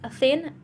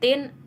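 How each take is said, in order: First: The word begins with a soft th sound. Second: The word begins with a hard t sound. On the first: The speaker calls it right. "Lebih jelas thin" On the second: The speaker calls it wrong. "Indonesia mengucapkan dengan tin"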